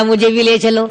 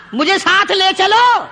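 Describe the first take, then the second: First: Said in the usual way. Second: High, insistent "مجھے ساتھ لے چلو"; emphatic plea. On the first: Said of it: "کہنے لگا". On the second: Acted. Sick companion begs the fighters to take him along, high insistent "مجھے ساتھ لے چلو". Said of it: "سمجھ رہے ہیں آپ سارے؟ فرمایا".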